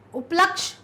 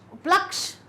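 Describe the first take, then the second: Both takes have the same delivery.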